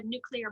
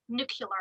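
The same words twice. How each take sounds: First: Said in the usual way. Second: "nuclear" said as "nucular"; imitated mispronunciation, "nuclear" with the "lee" turned into "kyuh"; Sarah slash Katie. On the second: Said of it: "or as Sarah slash Katie says".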